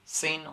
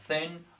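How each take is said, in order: First: The word begins with an s sound. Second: The word begins with a th sound. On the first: The speaker calls it wrong. "I say sin" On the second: The speaker calls it right. "when I want to pronounce thin"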